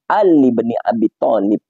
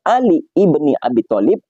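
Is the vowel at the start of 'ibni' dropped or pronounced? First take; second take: dropped; pronounced. First: The vowel at the start of ibni is dropped. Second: The vowel at the start of ibni is pronounced. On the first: "hamzahnya itu tidak dibaca, sehingga cara bacanya" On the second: "harusnya Ali ibni Abi Thalib"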